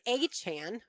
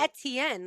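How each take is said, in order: First: It begins with an 'ay' then a 'ch' sound. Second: It begins like 'etouffee', with a t sound. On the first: The speaker calls it wrong. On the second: The speaker calls it right. "like etouffee"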